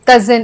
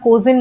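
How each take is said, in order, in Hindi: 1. पहला स्वर एक छोटी 'uh' ध्वनि है। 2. पहला स्वर एक 'oh' ध्वनि है।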